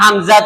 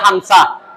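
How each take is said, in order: First: The middle consonant is a clear z sound. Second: The middle consonant is turned into s.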